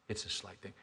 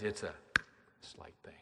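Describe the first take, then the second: First: Said in the usual way. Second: Breathy whisper, almost unheard; whispered refrain. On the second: Acted. Preacher hushes the congregation, whispering. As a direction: let the words fall to a hush.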